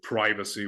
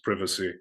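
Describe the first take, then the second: First: It is said the American way. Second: It is said the British way. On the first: "they will tend to pronounce it more Americanly" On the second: "which I would still pronounce as privacy"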